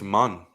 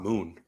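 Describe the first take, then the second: First: The syllable has a short, central vowel. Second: The syllable has a long 'oo' vowel. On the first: The speaker calls it right. "I think it's Mun" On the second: The speaker calls it wrong. "not Moon"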